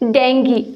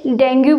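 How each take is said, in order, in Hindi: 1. शब्द का अंत "ee" ध्वनि से होता है। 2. शब्द का अंत "oo" ध्वनि से होता है। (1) "इसका सही प्रोनाउंसिएशन है डेंगी" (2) "सारे लोग इसे डेंगू बोलते हैं"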